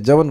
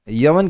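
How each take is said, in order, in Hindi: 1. शब्द की शुरुआत j ध्वनि से होती है। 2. शब्द की शुरुआत y ध्वनि से होती है। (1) "आप लोग बंगाली में य को ज बोलते हैं ना" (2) "यवन की जगह"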